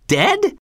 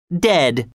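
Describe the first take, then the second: First: High rising Dead? in disbelief; Dead? asked high and rising, in shock; shocked question. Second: Said in the usual way. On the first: A narrator's reading. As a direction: toss Dead? up high, stunned. Shocked reply to dire news.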